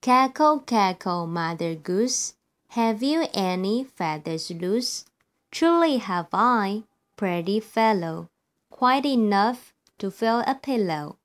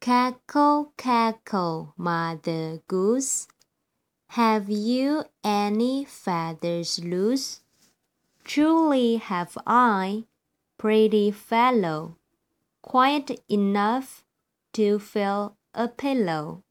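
First: The rhyme is read faster. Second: The rhyme is read slowly.

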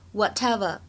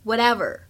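First: British accent, clear t and no final r. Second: American accent, flapped t and r-colored ending. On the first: "如果是读英式的读法，应该读成whatever" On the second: "美式的发音…t 有一个美音浊化的现象…就会变成whatever"

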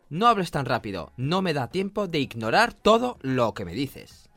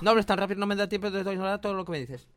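First: It is said at a normal speaking speed. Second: It is said faster than normal speech.

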